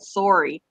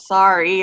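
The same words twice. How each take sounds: First: It is said with a Canadian accent. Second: It is said with an American accent. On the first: The speaker calls it wrong. "I've said sorry instead of" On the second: The speaker calls it right. "try to say it the proper way"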